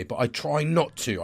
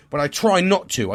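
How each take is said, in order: First: Said in the usual way. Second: Insisting with a punched try; stress on try. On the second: Shown as a demonstration. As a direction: try hit higher and louder.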